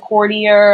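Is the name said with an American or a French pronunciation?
American. The name is said with an American pronunciation.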